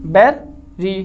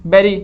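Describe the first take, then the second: First: berry broken slowly as 'ber', pause, 'ri'; split into syllables. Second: Said in the usual way. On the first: Shown as a demonstration. Teacher showing students where syllables divide, split word. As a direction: say berry in two separate parts. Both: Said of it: "दो syllable हो गए हैं".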